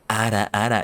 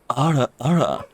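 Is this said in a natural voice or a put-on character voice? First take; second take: natural; put-on. First: It is said in an ordinary, natural voice. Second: It is said in a put-on character voice.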